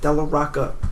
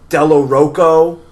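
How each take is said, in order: First: The last name ends with an 'ah' vowel. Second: The last name ends with an 'oh' vowel. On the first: The speaker calls it right. "It's it's an A" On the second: The speaker calls it wrong. "people are always like Della Rocco"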